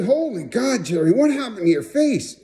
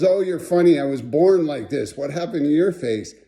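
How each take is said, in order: First: High-pitched, aghast retelling; re-enacted shock. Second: Mild mock comeback, near usual voice; imitated unimpressed retort. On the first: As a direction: exclaim it high, as if appalled at the sight. Shocked at sight of friend's face. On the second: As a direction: toss the question back, unimpressed. Friend throws the question back.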